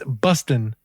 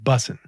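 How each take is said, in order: First: The word has a t sound in the middle. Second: The word has no t sound in the middle. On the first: This is the older form of the word. "it's bustin'" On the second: This is the current form of the word. "now it's called bussin'. They took the T out"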